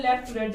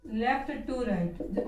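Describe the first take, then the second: First: Said in the usual way. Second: "left to right" stretched very slowly, word by word; teacher spelling out "left to right" slowly for copying; slow dictation. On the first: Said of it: "operator कार्य क्या होता है". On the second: Shown as a demonstration. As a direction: dictate "left to right" at writing speed with pauses. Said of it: "विशेषताओं में आ जाएगा".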